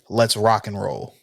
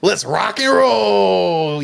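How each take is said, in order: First: It is said in an ordinary speaking voice. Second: It is said in a put-on character voice.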